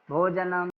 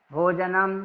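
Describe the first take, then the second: No difference in how they are said.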